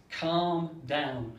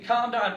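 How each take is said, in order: First: Said in the usual way. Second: Higher, louder calm down; mock parent. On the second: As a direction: parent shouting calm down at the tantrum. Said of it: "child going".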